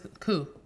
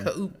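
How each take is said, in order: First: It is said as one short syllable, 'coo'. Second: It is said as two parts, 'ka' then 'oop'. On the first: The speaker calls it right. "It's coo" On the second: The speaker calls it wrong. "not ka ka oop"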